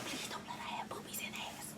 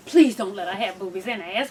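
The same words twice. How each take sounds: First: Breathy whispered plea; hushed prayer to Jesus. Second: Said in the usual way. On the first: Retold or imitated.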